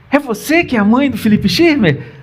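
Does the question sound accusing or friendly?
friendly. The question sounds friendly and pleasant. Nothing bad has happened. "Porque se fosse assim, ... Aí você já responde: sim, sou eu"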